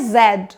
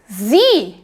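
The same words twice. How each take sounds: First: The letter is said as 'zed', British style. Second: The letter is said as 'zee', American style.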